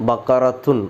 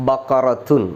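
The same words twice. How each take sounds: The two takes are said the same way.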